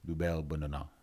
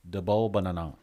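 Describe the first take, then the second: First: The first word is said as 'doo-bel'. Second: The first word is said as ordinary English 'double'.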